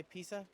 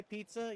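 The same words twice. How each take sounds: First: "pizza" with no T, like Pisa; accented pronunciation. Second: Said in the usual way. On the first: Retold or imitated. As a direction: say "pizza" as PEE-suh. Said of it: "You say pizza?". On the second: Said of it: "that's how you say pizza".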